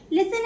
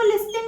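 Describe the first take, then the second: First: लिसन with no T sound; लिसन, leaving the T silent. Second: लिस्टन with the T pronounced; wrong reading लिस्टन with an audible T; T sounded. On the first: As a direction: say लिसन, going from S straight to N. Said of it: "इसमें टी silent होता है". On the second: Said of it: "नहीं बोलेंगे क्योंकि इसमें टी silent होता है". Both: Shown as a demonstration.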